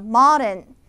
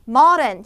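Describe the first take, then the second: First: The middle d is a soft flap. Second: The middle d is a clear, hard d. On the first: The speaker calls it right. "리을로 이제 바뀌어서 발음이 되겠죠" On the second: The speaker calls it wrong. "modern이 아니에요"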